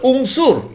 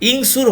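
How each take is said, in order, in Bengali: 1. শব্দটি u স্বরবর্ণ দিয়ে শুরু হয়। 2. শব্দটি i স্বরবর্ণ দিয়ে শুরু হয়। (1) "তাহলে উংসুর হলো" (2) "ইংসুর হলো না"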